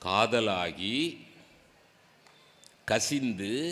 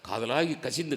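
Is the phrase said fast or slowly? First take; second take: slowly; fast. First: The phrase is said slowly and deliberately. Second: The phrase is rattled off very quickly. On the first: The words are said with devotion and meaning. The speaker calls it right. "மெதுவாக சொல்லு" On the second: The words are recited mechanically without feeling. The speaker calls it wrong. "சொல்கிற ஸ்பீடை பார்த்துருக்கீங்களா?"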